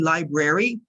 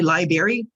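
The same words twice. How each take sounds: First: The first R sound is clearly pronounced. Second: The first R sound is dropped. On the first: The speaker calls it right. "but it's actually library" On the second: The speaker calls it wrong. "You will hear many Americans say library"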